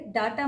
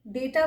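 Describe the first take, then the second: First: "डाटा" with a long aa first; wrong pronunciation. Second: "डेटा" with an ay vowel first; correct pronunciation. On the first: Teacher warning learners off "डाटा", starting with daa. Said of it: "डाटा मत बोलिए". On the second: Teacher giving learners the right "डेटा", starting with day. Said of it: "डेटा बोलिए". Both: Shown as a demonstration.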